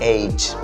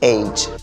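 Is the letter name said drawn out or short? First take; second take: drawn out; drawn out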